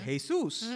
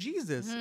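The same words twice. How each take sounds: First: The name is said with a Spanish pronunciation. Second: The name is said with an English pronunciation. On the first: The speaker calls it right. "It is Jesus" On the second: The speaker calls it wrong. "but it ain't Jesus"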